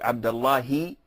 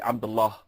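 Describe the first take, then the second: First: The name ends with an added final vowel. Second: The name ends on a consonant, with no final vowel. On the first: The name is joined to the following words. "if you want to connect it with a word afterwards" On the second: The name stands alone before a pause. "if you're gonna pose, you have to say Abdullah"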